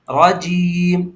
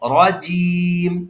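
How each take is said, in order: No difference in how they are said.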